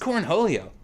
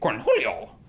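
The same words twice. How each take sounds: First: It is said in the speaker's normal voice. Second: It is said in a put-on character voice.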